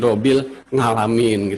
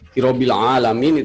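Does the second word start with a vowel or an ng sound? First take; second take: ng sound; vowel. First: The second word begins with an ng sound. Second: The second word begins with a plain vowel. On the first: The speaker calls it wrong. "jadi hirobil ngalamin gitu" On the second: The speaker calls it right. "mengucapkan ... hirobil alamin itu susah"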